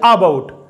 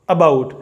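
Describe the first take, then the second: First: The first vowel is a long, open aa. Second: The first vowel is a short, light uh. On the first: The speaker calls it wrong. "तो हम ये नहीं कहते अबाउट" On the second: The speaker calls it right. "बिल्कुल हल्का सा अबाउट"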